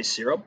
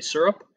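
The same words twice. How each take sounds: First: "syrup" with a short "ih" in the first syllable; "syrup" as SEER-up, not SUR-up; SIH-rup pronunciation. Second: "syrup" with an "ur" in the first syllable; "syrup" as SUR-up, rhyming with "stir up"; SUR-up pronunciation. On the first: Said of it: "I say syrup". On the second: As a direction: say "syrup" starting like "sir". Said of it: "a lot of people say syrup". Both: Shown as a demonstration.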